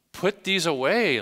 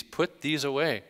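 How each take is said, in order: First: Higher, louder and slow, every word weighed; emphatic command. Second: Said in the usual way. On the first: Shown as a demonstration. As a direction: drive the command home from the pulpit. Preacher repeating the command emphatically.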